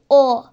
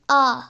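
First: The vowel sounds like a rounded o. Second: The vowel sounds like an open a. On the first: "Mesela şöyle değil" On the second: "Şu da değil"

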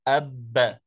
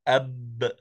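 First: A short vowel sound follows the final b. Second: The final b bounces with no vowel after it. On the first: The speaker calls it wrong. "لا يصح أن نقول أب. ب خطأ، لأنه آه، تشوبه حركة الفتحة" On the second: The speaker calls it right. "إنما يجب أن يبقى ساكنا"

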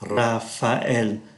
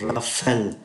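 First: The a and e are said as separate vowels. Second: The a and e are linked into one sound. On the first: The speaker calls it right. "chúng ta tách ra như thế này" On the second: The speaker calls it wrong. "chúng không đọc Raphael"

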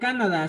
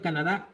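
First: The final syllable is not stressed. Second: The stress falls on the final syllable. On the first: The speaker calls it right. "se pronuncia Canadá sin acento en la" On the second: The speaker calls it wrong. "en lugar de Canadá"

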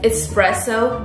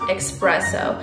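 First: The word begins with an 'es' sound. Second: The word begins with an 'ex' sound. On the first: The speaker calls it right. "espresso, not expresso" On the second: The speaker calls it wrong. "not expresso"

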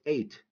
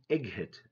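First: No 'g' sound is pronounced in the middle. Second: A hard 'g' sound is pronounced in the middle. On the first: The speaker calls it right. "It's eight" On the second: The speaker calls it wrong. "Don't say egg hit"

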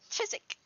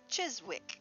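First: Some written letters are dropped in speech. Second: Every written letter is sounded out. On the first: This is how locals actually say it. "They pronounce it Chiswick" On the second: This follows the spelling. "should be pronounced Chiswick, because that's how it's spelled"

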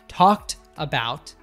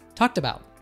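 First: The two words are said separately. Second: The two words are linked together. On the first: The speaker calls it wrong. "So not talked about" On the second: The speaker calls it right. "there's linking between these two words"

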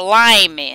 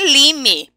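First: The vowel is pronounced the English way. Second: The vowel is pronounced the Portuguese way. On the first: The speaker calls it right. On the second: The speaker calls it wrong.

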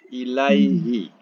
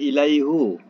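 First: The pronoun ends with an 'i' vowel. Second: The pronoun ends with a 'u' vowel. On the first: The speaker calls it right. "kita kena bunyikan bawah ya" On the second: The speaker calls it wrong. "Tak boleh ilaihu"

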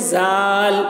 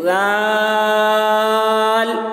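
First: It starts with a buzzing 'z' sound. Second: It starts with a soft 'dh' sound. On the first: The speaker calls it wrong. "कुछ लोग बोलते हैं जाल, जाल, ये गलत है" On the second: The speaker calls it right. "ज़बान की नोक को थोड़ा दांत से बाहर निकालते हैं और पतली आवाज़ से बोलते हैं, जैसे लाल, ये सही तलफ़ुज़ है"

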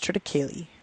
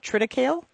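First: The word ends with a sounded final vowel. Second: The word ends without a final vowel sound. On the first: The speaker calls it right. "You pronounce the E at the end" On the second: The speaker calls it wrong. "a lot of people call it triticale"

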